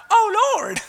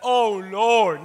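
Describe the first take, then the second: First: High-pitched mock cry; wrong, lightweight cry. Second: Drawn-out, heartfelt plea; crying out to the Lord. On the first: Preacher shows how not to cry out, high mock plea. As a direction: pitch it way up as a parody of praying. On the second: Preacher shows how one cries to the Lord, pleading. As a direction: stretch it into a weighty appeal. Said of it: "cried out to the Lord like that". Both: Shown as a demonstration.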